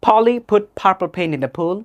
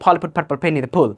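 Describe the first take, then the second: First: The sentence is said slowly. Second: The sentence is said quickly. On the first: "start slowly" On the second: "then accelerate"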